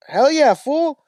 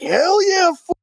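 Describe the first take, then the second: First: Higher, louder Chicano "Hell yeah, fool"; hammed-up Chicano homie cheering. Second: Much higher Chicano "Hell yeah, fool" while high-fiving; hammed-up Chicano homies celebrating. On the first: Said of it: "And the guy goes". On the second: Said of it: "They're like".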